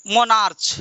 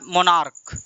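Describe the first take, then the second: First: मोनार्च with a ch sound at the end; wrong pronunciation. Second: मोनार्क ending in a hard k sound; right pronunciation. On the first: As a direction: say मोनार्च ending in च. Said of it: "गलत है". (मोनार्च का च वाला गलत उच्चारण) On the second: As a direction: say मोनार्क with a k at the end. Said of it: "इसका right pronunciation होता है". (मोनार्क, अंत में क की आवाज़) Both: Shown as a demonstration.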